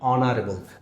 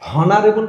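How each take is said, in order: First: The word starts with a vowel sound. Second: The word starts with an h sound. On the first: The speaker calls it right. "তাহলে ওয়ের মতো উচ্চারিত হচ্ছে" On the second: The speaker calls it wrong. "হনারেবল বলি না অনারেবল"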